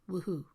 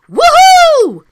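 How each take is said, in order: First: It is said with little energy. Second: It is said with lots of energy. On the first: The speaker calls it wrong. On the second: The speaker calls it right.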